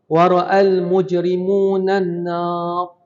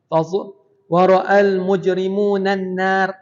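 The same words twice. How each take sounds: First: The final r is heavy and thick. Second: The final r is light and thin. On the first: The speaker calls it right. "Kita boleh juga waqaf" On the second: The speaker calls it wrong. "disebut ra nipis, dia kena tebal"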